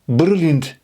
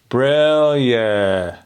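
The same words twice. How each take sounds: First: The consonants are hard and prominent. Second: The vowels are open and prominent. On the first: The speaker calls it wrong. "All I'm hearing is the B, the R, the L" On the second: The speaker calls it right. "Let's bring out those vowels"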